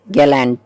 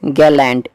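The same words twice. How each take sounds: The two takes are said the same way.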